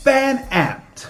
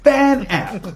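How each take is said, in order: First: The word is pronounced long and drawn out. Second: The same.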